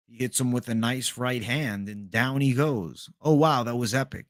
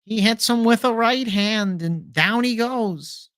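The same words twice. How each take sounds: First: A quieter Rogan call of the knockout; Rogan impression. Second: Higher excited fight call, slowing at the end; Ariel Helwani commentary. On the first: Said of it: "The Rogan impression". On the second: Retold or imitated. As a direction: call the knockout like a hyped commentator. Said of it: "The whole companion is Ariel Helwani".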